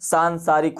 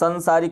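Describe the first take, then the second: First: The first vowel is long. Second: The first vowel is short. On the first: The speaker calls it right. "सांसारिक होता है" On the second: The speaker calls it wrong. "संसारिक नहीं होता है"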